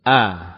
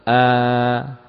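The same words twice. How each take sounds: First: The vowel is held for one short beat. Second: The vowel is held for two beats. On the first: "A ini 1 harokat" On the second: "2 ya"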